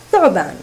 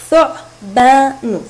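First: Said in the usual way. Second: ثعبان slow and loud in three syllables; split into syllables. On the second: Shown as a demonstration. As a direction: break ثعبان into three drawn-out beats. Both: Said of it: "تتكون الكلمة من ثلاثة مقاطع".

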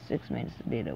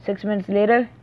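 First: "Six minutes later" muttered much softer, dropping at the end; muttered disbelief. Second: Said in the usual way. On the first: Real, not acted. Repeating the complaint about the player to himself, a soft disbelieving mutter. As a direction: mutter it under your breath, dropping the pitch.

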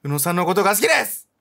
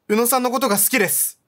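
First: A streamer's playful, louder take on the heroine's line; hammed-up confession; teasing stand-in confession; mock confession. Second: Higher, earnest voiced confession; lightly voiced sincere girl confessing; a hint of a shy heroine; heroine's confession. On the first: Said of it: "告白しようよ". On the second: Heroine's confession read aloud.

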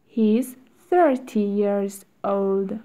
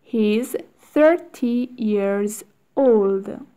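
First: Said in the usual way. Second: Slow, careful drill reading; slow model reading. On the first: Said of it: "drill at normal speed". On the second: Shown as a demonstration. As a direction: stretch it out for learners. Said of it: "teacher models drill slowly".

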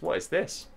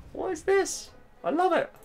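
First: Higher-pitched, real disbelief; astonished. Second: Very high falsetto squeal; delighted disbelief. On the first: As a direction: ask it in rising amazement. First amazed reaction to surprise move. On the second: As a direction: squeak it out in real amazed delight. Amazed, delighted by surprise move. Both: Real, not acted.

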